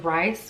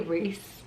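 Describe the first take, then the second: First: The vowel is 'eye', rhyming with nice. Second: The vowel is 'ee', rhyming with piece. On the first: The speaker calls it wrong. "I kept thinking like his name was Rice" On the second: The speaker calls it right. "but it's actually Reese"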